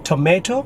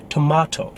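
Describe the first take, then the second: First: "tomato" as to-may-to, rising; American pronunciation. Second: "tomato" as to-mah-to; British pronunciation. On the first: Teacher contrasting American with British, American pronunciation. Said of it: "For Americans, the syllable is". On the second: Teacher contrasting British with American, British pronunciation. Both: Shown as a demonstration.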